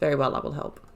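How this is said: It sounds exasperated and reluctant.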